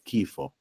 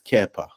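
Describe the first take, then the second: First: It has an i then o, with an f. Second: It has an e then a, with a p. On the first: This is the West Syriac form. "In the West Syriac, it's Kifo" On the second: This is the East Syriac form. "in the East Syriac, it's Kepa"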